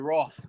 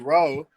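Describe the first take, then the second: First: The word ends with a strong breathy h. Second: The word ends without the strong breathy h. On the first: The speaker calls it right. "You want to say roh" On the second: The speaker calls it wrong. "You don't want to say ro"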